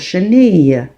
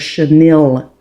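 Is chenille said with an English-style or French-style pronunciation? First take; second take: French-style; English-style. First: It is said with a French-style pronunciation. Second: It is said with an English-style pronunciation. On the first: This is the proper way to say the word. The speaker calls it right. "how you do pronounce this word" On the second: This is how many people commonly say it. The speaker calls it wrong. "as a lot of people say it"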